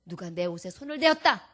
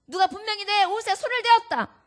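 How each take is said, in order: First: Said in the usual way. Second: 손을 hit high and loud, as an insistent call; louder insisting repeat. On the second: Acted.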